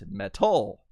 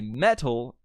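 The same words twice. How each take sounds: First: The stress is on the second syllable. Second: The stress is on the first syllable. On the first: The speaker calls it wrong. "not metal" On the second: The speaker calls it right. "I have the emphasis on the first part of the word because you say metal"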